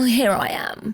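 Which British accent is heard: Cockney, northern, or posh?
posh. It is said in a posh British accent. "A posh Brit would be like"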